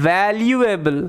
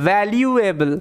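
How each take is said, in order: No difference in how they are said.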